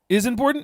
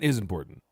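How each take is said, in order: First: The voice rises at the end, as a question. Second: The voice falls at the end, as a statement.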